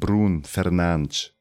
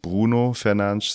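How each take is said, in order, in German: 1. Der Vorname endet ohne einen abschließenden Vokal. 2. Der Vorname endet mit einem hörbaren o-Laut. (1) "Das O spricht man nicht hinten" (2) "Also nicht Bruno Fernandes"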